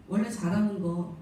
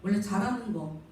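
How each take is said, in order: Both takes have the same delivery.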